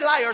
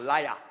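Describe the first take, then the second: First: It is said in a standard accent. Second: It is said in a Jamaican accent.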